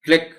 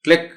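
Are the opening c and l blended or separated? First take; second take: blended; blended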